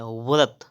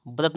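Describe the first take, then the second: First: व्रत starting with v, vrat; correct pronunciation. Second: व्रत starting with b, brat; closed-lip b opening व्रत; wrong pronunciation. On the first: Teacher correcting, व्रत as vrat. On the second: Teacher showing the error, व्रत as brat. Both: Shown as a demonstration. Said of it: "व्रत नहीं होता है".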